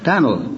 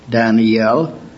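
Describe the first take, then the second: First: The name is said with one syllable. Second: The name is said with three syllables. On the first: This is the American pronunciation. "But Moody pronounced it with one" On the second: This is the Hebrew pronunciation. "the Hebrew word Daniel has three syllables"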